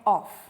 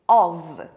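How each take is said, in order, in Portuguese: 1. A palavra termina com som de F. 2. A palavra termina com som de V. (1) "não é off" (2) "a pronúncia vai ser com V"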